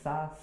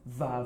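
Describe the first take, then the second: First: The consonant is voiceless, without vibration. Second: The consonant is voiced, with vibration. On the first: "eu já coloco mais entre os dentes" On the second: "Tem gente que fala za ... Vibrando"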